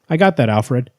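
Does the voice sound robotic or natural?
natural. It is said in a natural, human voice.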